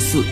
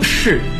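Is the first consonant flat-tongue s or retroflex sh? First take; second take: flat s; retroflex sh. First: It starts with a flat-tongue s sound. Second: It starts with a retroflex sh sound. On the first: The speaker calls it wrong. "这是一个平翘舌的问题" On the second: The speaker calls it right. "她说那个叫式不是四"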